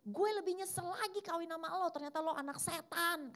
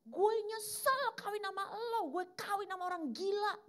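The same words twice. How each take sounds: First: The husband yelling back even angrier; hammed-up furious husband in a quarrel; husband's angry retort. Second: Much higher, louder mock scream; the wife yelling her regret in public; hammed-up shrieking wife in a quarrel; wife's angry outburst. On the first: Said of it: "Suaminya nunjuk istrinya bilang gini". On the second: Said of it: "Istrinya bilang gini".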